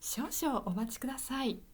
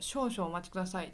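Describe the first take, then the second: First: It is said in a higher, clear, pretty voice. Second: It is said in a plain everyday voice.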